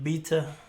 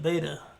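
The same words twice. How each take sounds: First: It is said with a British pronunciation. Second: It is said with an American pronunciation. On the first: This is how relatives abroad say it. "my family's U K, they say stuff like beta" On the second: This is how the speaker's own group says it. "We call it beta"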